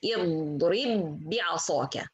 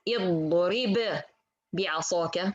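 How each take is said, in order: First: The two b sounds merge into one doubled b. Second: The two b sounds are said separately. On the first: The speaker calls it right. "I say" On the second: The speaker calls it wrong. "I don't say"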